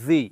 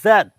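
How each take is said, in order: First: The letter is said as zee. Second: The letter is said as zed. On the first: "আমেরিকানরা বলে জি" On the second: "this is জেড"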